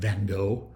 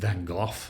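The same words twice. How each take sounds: First: The name is said with an American pronunciation. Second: The name is said with a British pronunciation. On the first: "the American pronunciation" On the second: "the British pronunciation"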